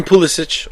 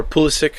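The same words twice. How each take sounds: First: "Pulisic" ending in a ch sound; first pronunciation. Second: "Pulisic" ending in a k sound; alternative pronunciation. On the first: Fan offering one version, "Pulisic" ending in -itch. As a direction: say "Pulisic" as PULL-ih-sitch. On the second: Fan offering another version, "Pulisic" ending in -ick. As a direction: say "Pulisic" as PULL-ih-sick. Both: Shown as a demonstration. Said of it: "however you wanna pronounce it".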